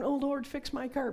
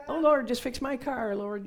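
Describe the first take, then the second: First: High, loud whiny prayer; mocking a lazy prayer; mock pleading prayer. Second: Much higher and louder begging wail; exaggerated whiny prayer; mock pleading prayer. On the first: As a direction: beg God to fix the car. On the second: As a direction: plead dramatically to God.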